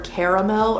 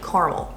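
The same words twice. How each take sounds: First: The middle 'a' vowel is clearly pronounced. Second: The middle 'a' vowel is dropped. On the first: "do capital A for caramel" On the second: "or like caramel"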